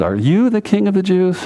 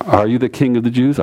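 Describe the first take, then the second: First: Emphatic "you", pitched up into a questioning tone; higher, doubting question leaning on "you"; stress on YOU. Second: Said in the usual way. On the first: Acted. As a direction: punch "you" and keep the question high. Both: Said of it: "the you is emphatic".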